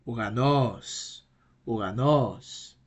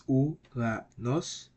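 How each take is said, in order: First: "Uranos" joined up, with a long stressed NOS; stress on last syllable. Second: "Uranos" slowly split as u, ra, nos; syllable by syllable. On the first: Teacher giving the right pronunciation, "Uranos" whole with accent on NOS. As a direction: run "Uranos" together and lean on the final syllable. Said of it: "the right pronunciation will be". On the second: Teacher breaking the word down, "Uranos" slowly in separate syllables. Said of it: "break it down into syllables". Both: Shown as a demonstration.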